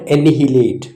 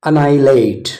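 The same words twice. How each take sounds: First: The first h sound is pronounced. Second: The first h sound is not pronounced. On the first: The speaker calls it wrong. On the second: The speaker calls it right. "ಸೈಲೆಂಟ್"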